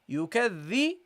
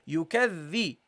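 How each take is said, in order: First: The doubled consonant is a voiced th sound. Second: The doubled consonant is a voiced th sound.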